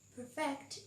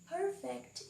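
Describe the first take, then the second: First: The stress is on the second syllable. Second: The stress is on the first syllable. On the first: It means to make something flawless. "Perfect is a verb. It means to make something flawless" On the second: It describes something flawless. "Perfect is a noun. It means when something is flawless"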